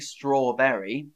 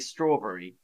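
First: The 'berry' part is said fully and clearly. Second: The 'berry' part is shortened and run together. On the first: The speaker calls it wrong. "I don't say strawberry" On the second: The speaker calls it right. "It's sort of turned into a different word. So I say strawberry"

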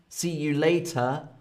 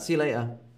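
First: The T in later is a hard T. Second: The T in later is dropped. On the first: "with a hard T" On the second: "I don't really say the T"

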